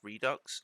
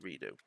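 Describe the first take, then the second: First: The word ends with a ks sound. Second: The word ends with an oo sound. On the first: This is how it is meant to be said. "I think it's meant to be pronounced redux" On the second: This is how the speaker has always said it. "I've always pronounced it redo"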